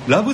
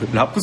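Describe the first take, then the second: First: The syllable is said with a b sound. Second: The syllable is said with a p sound. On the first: The speaker calls it wrong. "ラブだじゃないからね" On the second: The speaker calls it right. "ラップだからね"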